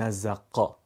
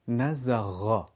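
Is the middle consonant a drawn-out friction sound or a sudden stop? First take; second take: stop; friction. First: The middle consonant is a sudden, explosive stop. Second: The middle consonant is a drawn-out, gargled friction sound. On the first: The speaker calls it wrong. "نمیگیم نزقا" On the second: The speaker calls it right. "کششی، سایشی، دنباله دار"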